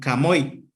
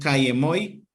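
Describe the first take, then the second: First: The vowels merge into one contracted syllable. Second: The two words keep their separate vowels. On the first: "decían Kamoy" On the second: "Para no decir Kayemoy"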